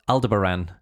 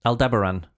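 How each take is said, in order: First: Aldebaran as AL-duh-buh-ran; stress on first syllable. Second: Aldebaran as al-DEB-er-an; stress on DEB. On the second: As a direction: hit the second syllable of Aldebaran. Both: Shown as a demonstration. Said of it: "Either way".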